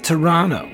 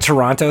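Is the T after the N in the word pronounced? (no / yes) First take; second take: no; yes. First: The T after the N is dropped. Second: The T after the N is clearly pronounced. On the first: This is how locals say the city name. The speaker calls it right. "we from Toronto call it Toronto" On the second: This is how an outsider says the city name. The speaker calls it wrong. "When you pronounce the T, that's whack"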